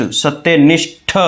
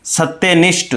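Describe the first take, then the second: First: सत्यनिष्ठ slowly, with a separate full ठ at the end. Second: Said in the usual way. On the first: Shown as a demonstration. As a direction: release the final ठ of सत्यनिष्ठ as its own aspirated syllable. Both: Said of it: "ठ पूरा आता है".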